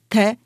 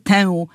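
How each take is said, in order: First: The vowel is a plain e. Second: The vowel is nasal. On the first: The speaker calls it right. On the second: The speaker calls it wrong. "nie tę"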